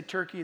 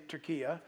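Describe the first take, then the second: First: TURKEY said the English way, TUR-kee; Turkey with two syllables, ending in -kee; English name form. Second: Turkiya said the Turkish way, with three syllables; local name form. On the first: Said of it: "we say Turkey". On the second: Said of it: "they say Turkiya". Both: Shown as a demonstration.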